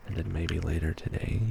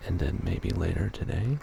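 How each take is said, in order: First: TODAY kept low, without the rise; level ending. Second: TODAY lifted in a clear rise; rising ending. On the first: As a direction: hold "today" down rather than lifting its end. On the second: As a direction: let the pitch climb at the end of "today". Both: Shown as a demonstration. Same phrase repeated with contrasting tune.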